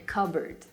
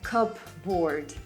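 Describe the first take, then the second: First: The P sound blends into the B. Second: The P sound is clearly pronounced. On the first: The speaker calls it right. "but a cupboard" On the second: The speaker calls it wrong. "it's not a cupboard"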